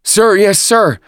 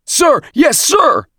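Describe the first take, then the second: First: High, loud recruit reply; raised-pitch military response; varied enthusiasm. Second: Very high, full-voiced recruit yell; loud, strained military shout; shouted in unison. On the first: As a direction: answer the officer as a drilled squad. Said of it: "the recruits answered with varied enthusiasm". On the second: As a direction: yell it like a whole drilled platoon. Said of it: "recruits shouted at once". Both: A narrator's reading.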